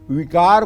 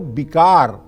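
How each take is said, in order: First: The word begins with a v sound. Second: The word begins with a b sound. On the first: "व की जगह ब लिखा हुआ है" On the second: "व की जगह ब लिखा हुआ है"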